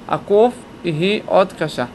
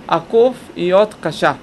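Both takes have the same delivery.

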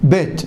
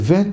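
First: The first sound is hard, a stop. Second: The first sound is soft, a fricative.

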